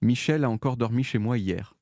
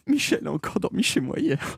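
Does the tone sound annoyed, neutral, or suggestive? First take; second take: neutral; annoyed. First: It is said in a flat, neutral tone. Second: It is said in an exasperated, fed-up tone. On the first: It is a dry statement of fact. "avec cette intonation-là, très très neutre" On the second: The sender is tired of it happening. "j'en ai marre"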